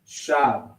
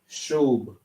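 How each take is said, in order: First: The vowel sounds like 'ah'. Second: The vowel sounds like 'uh'. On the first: This is how our own group pronounces it. The speaker calls it right. "we would just say shab" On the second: This is how the other group pronounces it. The speaker calls it wrong. "how they would pronounce it"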